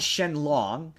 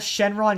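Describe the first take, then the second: First: The second syllable starts with an L sound. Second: The second syllable starts with an R sound. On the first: This is the literal romanized name. The speaker calls it wrong. "They call Shenron Shenlong" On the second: This is the name American audiences know. The speaker calls it right. "just say Shenron"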